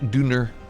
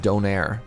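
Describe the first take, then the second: First: The word is said with a German pronunciation. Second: The word is said with an English pronunciation.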